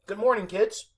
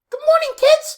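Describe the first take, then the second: First: The voice sounds changed by an effect. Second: The voice sounds natural and unprocessed.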